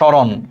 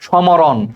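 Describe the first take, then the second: First: The m sound is not pronounced. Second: The m sound is clearly pronounced. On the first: The speaker calls it right. "সেই মটা উচ্চারিত হয় না" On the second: The speaker calls it wrong. "সমরণ কিন্তু আমরা বলি না"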